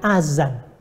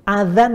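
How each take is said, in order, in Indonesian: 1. Konsonan di tengah itu bunyi 'z' yang berdengung. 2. Konsonan di tengah itu bunyi 'dh' yang lembut.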